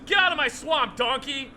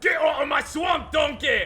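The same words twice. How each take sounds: First: Higher, louder Scottish ogre bark; hammed-up Scottish ogre chasing Donkey off; Scottish accent, ogre yelling at donkey; Scottish Shrek voice. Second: Higher, louder full Scottish ogre shout; Scottish accent, ogre shouting at donkey; shouted Scottish Shrek. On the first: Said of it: "Michael Myers is doing a bunch of lines". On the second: Retold or imitated. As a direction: roar it like an ogre in a recording booth. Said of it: "And then Michael Myers just".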